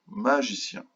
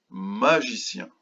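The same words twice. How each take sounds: First: Said in the usual way. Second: "magicien" slow, opening "ma" drawn out; syllable by syllable. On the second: Shown as a demonstration. Teacher introducing a word to children, "magicien" said slowly by syllables. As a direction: stretch "magicien" as ma, gi, cien. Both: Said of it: "Combien de syllabes dans magicien?".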